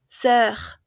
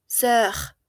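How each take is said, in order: No difference in how they are said.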